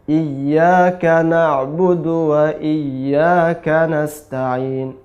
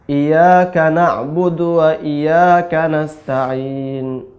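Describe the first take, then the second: First: The doubled y sound is pressed and held. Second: The y sound is short and not pressed. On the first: The speaker calls it right. "ketika mendapatkan tasydid, maka hurufnya ditekan" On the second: The speaker calls it wrong. "kesalahan yang sering terjadi tidak ditekan"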